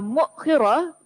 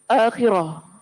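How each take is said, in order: First: No vowel follows the glottal stop after mu. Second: The word starts with a long a vowel. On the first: "dengan mendamahkan huruf mim, mensukunkan hamzah dan mengkasrahkan huruf kha" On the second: "dengan memanjangkan huruf hamzah"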